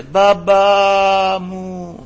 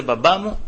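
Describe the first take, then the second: First: Long drawn-out high wail, imitated; child's cry. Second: Said in the usual way. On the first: Child calling to father from the treatment room, imitated wail. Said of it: "μέσα το παιδί φώναζε". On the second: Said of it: "φώναζε".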